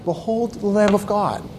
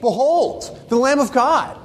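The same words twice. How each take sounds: First: It is said quietly. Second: It is said loudly, proclaimed.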